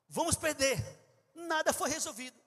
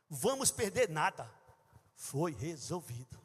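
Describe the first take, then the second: First: The pause comes right after 'perder'. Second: The pause comes right after 'nada'. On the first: We will lose; nothing was solved. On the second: We will lose nothing; it was solved.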